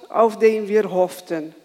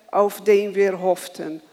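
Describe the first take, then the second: No difference in how they are said.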